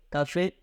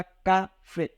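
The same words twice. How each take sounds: First: Said in the usual way. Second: "café" split in two, ca, then fé; syllable by syllable. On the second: Shown as a demonstration. Teacher showing students how café divides into two syllables, "café" said syllable by syllable. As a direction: say "café" with a break between its syllables. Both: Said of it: "porque dividimos aqui café".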